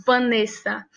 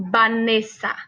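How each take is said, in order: First: Vanessa with a lip-on-teeth v; Portuguese Vanessa. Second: Vanessa said banesa, strong bilabial b; Spanish Vanessa. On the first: Teacher contrasting Portuguese and Spanish Vanessa. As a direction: say Vanessa with a buzzing labiodental v. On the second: Teacher showing students the Spanish Vanessa. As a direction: start Vanessa with both lips, like banesa. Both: Shown as a demonstration. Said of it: "em espanhol".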